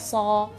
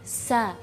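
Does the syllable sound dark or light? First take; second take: dark; light. First: The syllable is heavy with an o-like vowel. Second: The syllable is light with a clear a vowel. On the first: The speaker calls it wrong. "suaranya sudah mirip-mirip dengan huruf sad" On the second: The speaker calls it right. "membacanya dengan lidah kita datar"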